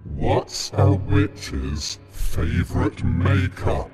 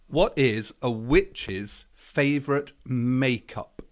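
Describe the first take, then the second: First: It is said in a put-on voice. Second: It is said in a normal voice.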